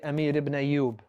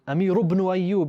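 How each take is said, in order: First: The ending vowels are dropped and the words end clipped. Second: The words flow together with their ending vowels. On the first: This is how people say it nowadays. "they'll make this sukoon. They won't even make this dhamma" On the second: This is the older, classical way of saying it. "you made it flow"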